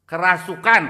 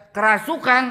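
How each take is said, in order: First: Said in the usual way. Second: "Kerasukan?" repeated high and loud as a doubting question; a nurse who won't believe it, echoing loudly; incredulous echo. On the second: Retold or imitated. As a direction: echo the word back in disbelief. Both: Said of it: "suster nggak percaya".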